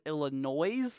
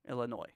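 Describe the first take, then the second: First: The final S sound is clearly pronounced. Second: The final S sound is left silent. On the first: The speaker calls it wrong. "with multiple S's like Selfcare says" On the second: The speaker calls it right. "kind of with like a silent silent S"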